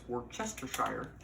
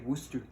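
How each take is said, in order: First: Every written syllable is sounded out. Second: Several syllables are dropped and run together. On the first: "if you pronounce it phonetically" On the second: "how they say it in um, England"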